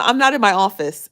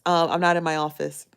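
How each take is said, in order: First: Raised, punchy declaration; louder, hitting the word not; loud and emphatic. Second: Said in the usual way. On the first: Real, not acted. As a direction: belt it out to the viewers.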